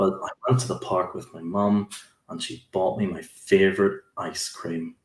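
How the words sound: The sentence is said in a sad tone.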